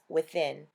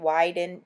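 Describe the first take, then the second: First: The middle consonant is a th sound. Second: The middle consonant is a d sound. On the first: The speaker calls it right. "she told me that it was pronounced Within" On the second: The speaker calls it wrong. "I was calling it Widen, W I D I N"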